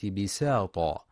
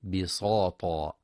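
First: بساطا with a light, thin س; thin sin. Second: بساطا with the س made heavy like ص; mock mistake; wrong heavy sin. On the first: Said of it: "لترقيق السين". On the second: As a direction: show the error: "bisata" with a thick s. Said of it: "بتفخيم السين". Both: Shown as a demonstration.

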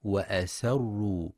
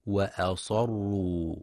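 First: وأسروا with a light s instead of sad; mock mistake, وأسروا; wrong thin sin. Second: وأصروا with a thick, emphatic sad; slow demo of وأصروا; heavy sad. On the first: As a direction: show the error: thin س in وأسروا. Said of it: "فتشبه في اللفظ". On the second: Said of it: "لتفخيم الصاد". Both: Shown as a demonstration.

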